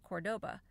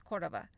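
First: The middle consonant is a hard B sound. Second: The middle consonant is a soft V sound. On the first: This is how most Americans would say it. The speaker calls it wrong. "most Americans would probably pronounce it Cordoba" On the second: This sounds more like a local Argentinian. The speaker calls it right. "I kind of throw a little V in there, even though it's with a B"

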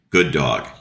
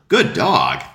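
First: The praise is said in a flat, dull voice. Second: The praise is said in a bright, lively voice. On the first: The speaker calls it wrong. "Sounds terrible" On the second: The speaker calls it right. "The dog eats it up"

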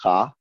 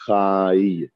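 First: The word ends on a plain vowel with no glide. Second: The word ends with a 'y' glide after the vowel. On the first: The speaker calls it wrong. "the yud is not silent... it's not cha" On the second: The speaker calls it right. "We pronounce it like the word chai"

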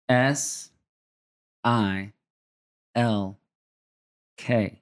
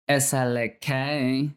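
First: It is spelled slowly in a plain accent. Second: It is spelled in an attempted Southern accent.

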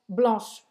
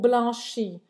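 First: The word ends with a hissing sh sound. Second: The word ends with an added vowel sound. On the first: The speaker calls it right. "Termina com esse chiado" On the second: The speaker calls it wrong. "você não fala blanche ou blanchi"

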